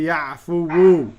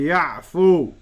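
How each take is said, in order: First: The word ends in a fuller 'fuwu'. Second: The word ends in a short 'fu'. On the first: The speaker calls it wrong. "we wouldn't say ya'fuwu" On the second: The speaker calls it right. "we would say ya'fu"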